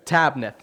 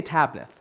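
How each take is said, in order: First: Tabnith said briskly, TAB-nith, confirming the room's try; repeat tabnith. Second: Tabnith said slowly as TAB-nith, stress on the first syllable. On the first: Preacher praises congregation and repeats tabnith, brisk confirming pronunciation. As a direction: echo the word tabnith back as a quick confirmation. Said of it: "Very good, tabnith". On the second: Preacher models tabnith for congregation, slow careful pronunciation. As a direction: model the word tabnith carefully for the room to repeat. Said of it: "Can you say tabnith?". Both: Shown as a demonstration.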